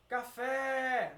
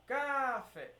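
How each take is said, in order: First: Café with a long, loud final fé; stress on FÉ. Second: Café with a long, emphasized first ca and short fé; deliberately misplace the stress in café onto ca; wrong stress on CA. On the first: Teacher testing where stress falls, stress on fé. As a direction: call out café, stretching and hitting the last syllable. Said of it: "basta só fazer aquele mesmo esquema". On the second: Teacher showing how not to say it, stress on ca. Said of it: "não, você não vai falar". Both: Shown as a demonstration.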